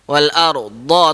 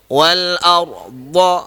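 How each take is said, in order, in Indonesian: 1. Bunyi d itu ringan dan tipis. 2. Bunyi d itu berat dan tebal. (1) "dia kurang tebal" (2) "Nampak mulut saya dia sengit sikit kan?"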